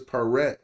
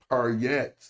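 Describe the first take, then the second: First: The word is said without a y sound. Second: The word is said with a y sound. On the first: The speaker calls it right. "it's paret when you use it because we left out the Y" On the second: The speaker calls it wrong. "we're not saying par yet"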